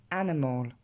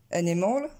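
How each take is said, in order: First: ANIMAL as AN-uh-mol, weak middle, lower pitch; first-syllable stress. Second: ANIMAL as uh-NEH-mol, stressed on the second syllable; wrong word stress. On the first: Teacher showing the correct result, first-syllable stress. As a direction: hit the opening A of ANIMAL and reduce the middle. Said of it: "l'accent tonique va tomber sur la première syllabe". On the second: Teacher quoting a learner's bad attempt, misplaced stress. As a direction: shift the stress of ANIMAL to its middle, rising. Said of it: "c'est pas bon du tout". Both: Shown as a demonstration.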